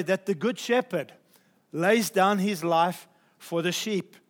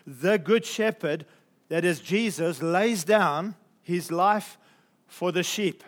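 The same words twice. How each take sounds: First: Said in the usual way. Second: The good shepherd ... lays down his life, slow and weighted, good and lays leaned on; preacher dwells on good and lays; slow emphatic quote. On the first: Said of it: "I'm wanting to emphasize this statement". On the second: Shown as a demonstration. Preacher slowing down for the congregation, stress on good and lays. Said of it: "this incredible statement".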